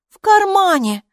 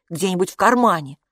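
First: «В кармане!» thrown back high and loud in scorn; mock the word «кармане» back at him; mocking repeat. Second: Said in the usual way. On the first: A narrator's reading. Hilla mocks Kapo's pocket idea with a high, loud «В кармане!». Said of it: "насмешливо повторила Хилла". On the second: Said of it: "Может, яйца у него были".

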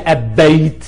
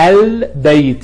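First: أبيت with no l and a doubled b, "ab-bayt"; wrong assimilated lam. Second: البيت slowly, with a clear held l, "al-bayt"; sounded moon lam. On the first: Teacher showing what not to say, أبيت with doubled b. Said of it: "ما بتقولش". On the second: Teacher correcting the mistake, البيت with a clear l. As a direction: linger on the l of البيت. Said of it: "يبقى اللام ساكنة". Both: Shown as a demonstration.

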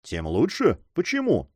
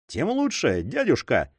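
First: Puzzled echo. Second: Cheerful. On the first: Uncle questions his nephew's reply, puzzled. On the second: Philippe answers his uncle's objection, cheerfully. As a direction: toss it off cheerfully. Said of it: "весело заметил Филипп". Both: A narrator's reading.

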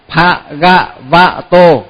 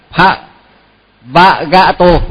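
First: "Pha Gạ Vạ Tô", each syllable separate, Gạ before Vạ; phát âm rõ từng âm. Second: "Pha Vạ Gạ Tô", with Vạ swapped before Gạ; đảo nhầm âm tiết. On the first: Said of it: "phải phát âm cho thật đúng". (đọc tách từng tiếng "Pha Gạ Vạ Tô") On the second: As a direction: misread it as "Pha Vạ Gạ Tô". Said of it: "đọc trật ấy". (đọc nhầm thành "Pha Vạ Gạ Tô") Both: Shown as a demonstration.

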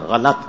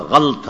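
First: غلط in two syllables, "gha-lat"; correct pronunciation. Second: غلط as one syllable, "ghalt"; drawn-out غلط with no vowel between l and t; common mispronunciation. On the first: Cleric answering his own question, غلط said as "ghalat". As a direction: open a short a after the l in غلط, slowly. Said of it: "صحیح تلفظ کیا ہے؟". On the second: Cleric showing people's mistake, غلط said slowly as "ghalt". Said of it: "غلط کو بھی ہم غلط پڑھ رہے ہیں". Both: Shown as a demonstration.

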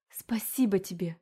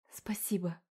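First: Urgent whispered thanks; whispering. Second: Breathless grateful whisper. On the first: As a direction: thank him in a hushed whisper. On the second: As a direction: whisper your thanks, barely voiced. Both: A narrator's reading. Rescued mother thanks demon.

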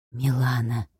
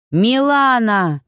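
First: Hushed male whisper, low and soft. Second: Slow, louder call across the roar. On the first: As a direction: breathe the name in awe. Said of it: "прошептал Егор". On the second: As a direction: try to shout through the chaos. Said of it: "пытался докричаться Егор". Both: A narrator's reading.

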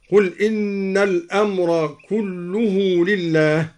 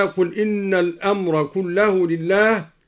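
First: كله said "kulluhu", u on the l; slow recitation with كله as "kulluhu"; raised lam, u ending. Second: Said in the usual way. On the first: Shown as a demonstration. Teacher shows al-Duri's reading of كله as "kulluhu". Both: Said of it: "قرأ الدوري برفع اللام".

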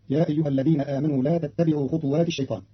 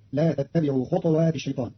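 First: Said in the usual way. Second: خطوات with the ط sukun-silenced, khutwat; Qalun reading. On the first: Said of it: "قرأ قالون كلمة خطوات ... بإسكان الطاء". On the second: Shown as a demonstration. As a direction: read خطوات as khutwat, no vowel on the ط. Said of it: "بإسكان الطاء". (خطوات بإسكان الطاء)

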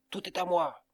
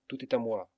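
First: Higher and louder, a furious howl of "Tout est à moi!". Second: A touch of greed in "tout est à moi"; lightly insistent, not yet shouting "tout est à moi"; grumbling claim. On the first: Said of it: "il hurla". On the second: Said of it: "en répétant à chaque coup de pioche". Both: A narrator's reading.

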